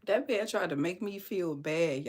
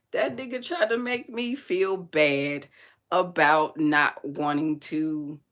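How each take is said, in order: First: Said in the usual way. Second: Drawn-out stress on tried, voice lifted in outrage; emphatic restatement. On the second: Real, not acted. Repeats the complaint with more force.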